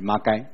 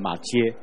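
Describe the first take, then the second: First: The name is read with Taiwanese pronunciation. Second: The name is read with Mandarin pronunciation. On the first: "可本来是马街" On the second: "直接读成国语就变成马街"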